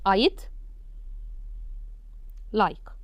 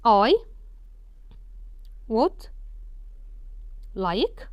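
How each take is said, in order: First: The word 'would' is shortened to a 'd' sound. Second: The word 'would' is said in full. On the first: "شلتها وحطيت مكان كل ده ابوستروفي" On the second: "المفروض نقراها تاني نقولها ازاي؟"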